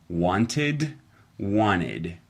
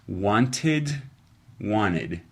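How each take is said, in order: Both takes have the same delivery.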